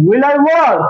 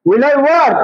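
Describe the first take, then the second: First: Will I work? said slowly, each word apart; slow teacher's model of "will I work?"; slow spelled-out model. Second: Said in the usual way. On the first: Shown as a demonstration. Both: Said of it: "auxiliary ভার্বটা আগে দিয়ে নিয়ে আসি".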